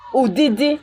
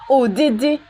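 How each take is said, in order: Both takes have the same delivery.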